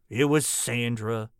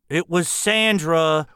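First: It is said quietly. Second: It is said loudly.

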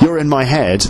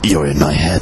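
First: It is said in an ordinary, normal voice. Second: It is said in a strange, creepy put-on voice. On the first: A friendly listener simply means they enjoy the podcast. The speaker calls it right. "If you say, you're in my head, I'll understand what that means" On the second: It sounds like an obsessive, unsettling fan. The speaker calls it wrong. "if you do it with that voice"

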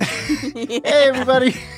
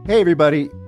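First: It is said at a higher pitch. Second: It is said at a lower pitch.

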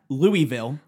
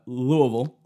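First: The name is said closely following its spelling. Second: The name is said in a shortened local way. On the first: The speaker calls it wrong. "Not... Louisville. Which is what a normal person would pronounce it" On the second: The speaker calls it right. "but Louisville"

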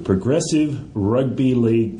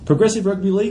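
First: It is said in a plain, normal voice. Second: It is said in a slightly whiny voice.

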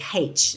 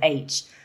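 First: The letter is said in an Irish accent. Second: The letter is said in an English accent. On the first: This is how the speaker said it as a child. "I used to get teased a lot for saying H" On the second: This is how the other schoolchildren said it. "instead of H"

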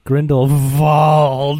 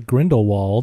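First: The middle consonant is a V sound. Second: The middle consonant is a W sound. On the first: This is how a true magic person says it. "then I heard Dumbledore be like" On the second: This is how most people say it. "I heard all the other people say Grindelwald"

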